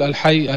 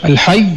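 First: الحي with a short, single final y; lightened final consonant. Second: الحي with the final y doubled and held; doubled final consonant. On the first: Teacher shows what not to say, lightened ending. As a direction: let الحي end lightly, without doubling the y. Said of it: "بالتخفيف". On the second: Teacher shows how to say God's name, with shadda. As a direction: stress and lengthen the shadda at the end of الحي. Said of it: "أما الحي بالشدة". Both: Shown as a demonstration.

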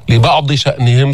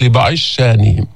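First: لبعض شأنهم with ض and hamza kept; بدون إدغام; standard form. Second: لبعض شانهم with ض merged into doubled ش; برواية السوسي بالإدغام; Al-Susi merge. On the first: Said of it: "صارت". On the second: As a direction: merge the ض into ش, easing the hamza. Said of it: "رواية السوسي عن أبي عمرو". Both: Shown as a demonstration.

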